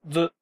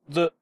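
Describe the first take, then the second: First: The sound is short, with a tongue flick. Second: The sound is short, with a tongue flick.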